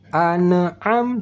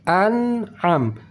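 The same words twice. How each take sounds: First: The final m is released with a bounce. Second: The final m is held with no bounce. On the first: The speaker calls it wrong. "Tidak perlu kita apa namanya pantulkan an'am, an'am, tidak, itu salah" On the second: The speaker calls it right. "Ujung lidah masih di sini"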